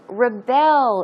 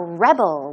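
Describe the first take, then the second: First: The stress is on the second syllable. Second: The stress is on the first syllable. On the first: It is an action meaning to resist authority. "Verb form once again, that is to rebel. As I said, the stress goes on the second syllable" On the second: It names a person who resists authority. "And as a noun"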